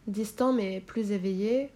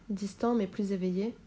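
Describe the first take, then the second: No difference in how they are said.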